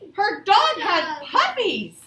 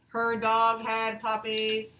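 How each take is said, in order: First: It is read with lively excitement. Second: It is read flatly, without excitement. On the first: The speaker calls it right. "I need to show some excitement" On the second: The speaker calls it wrong. "Should I read it like that? No"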